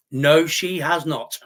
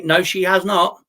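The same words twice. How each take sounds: First: "No, she has not" said slowly, each word hit hard; slow emphatic denial. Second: Said in the usual way. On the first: Shown as a demonstration. Streamer flatly denying a chat claim, slow and emphatic.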